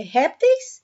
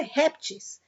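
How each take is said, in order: First: "répteis" ending in an -eis diphthong; first plural form. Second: "répteis" said as "réptis"; second plural form. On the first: Teacher showing pupils the first plural form, "répteis" ending in -eis. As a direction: say "répteis" with a clear "ays" ending. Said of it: "A primeira é répteis". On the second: Teacher showing pupils the rarer second form, "répteis" ending in -is. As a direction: say "répteis" with a plain "ees" ending, no diphthong. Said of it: "e a segunda é répteis". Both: Shown as a demonstration.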